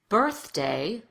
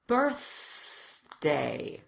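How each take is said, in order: First: It is said quickly in a conversational way. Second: It is said slowly with a drawn-out th. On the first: "Now let's speed it up" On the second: "We'll do the words really slowly and exaggerate the T H at first"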